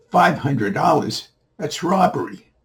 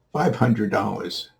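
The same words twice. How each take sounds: First: High, incredulous echo of the price; acted outrage. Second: Said in the usual way. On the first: Man balking at the boy's price, incredulous. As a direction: pitch it up in indignant disbelief.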